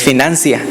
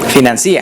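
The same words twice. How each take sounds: First: The stress falls on the 'nan' syllable. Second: The stress falls on the 'ci' syllable. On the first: The speaker calls it right. "esa es la manera correcta" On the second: The speaker calls it wrong. "con acento en la I"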